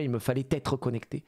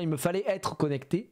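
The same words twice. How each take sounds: First: A T sound links fallait to être. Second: There is no T sound between fallait and être. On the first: The speaker calls it wrong. "plutôt que de dire" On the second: The speaker calls it right. "je trouve ça plus joli de dire"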